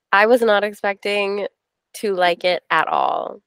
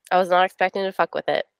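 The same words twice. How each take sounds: First: Said in the usual way. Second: Quick, voiceless whisper of a confession. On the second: Real, not acted. Whispering to her book club co-hosts about a book. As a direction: hush it like a naughty secret.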